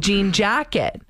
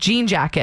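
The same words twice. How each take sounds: First: The pitch jumps higher on the second word. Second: The pitch stays level across both words. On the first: The speaker calls it wrong. "You go like higher octave on the second A" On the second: The speaker calls it right. "it's just jean jacket"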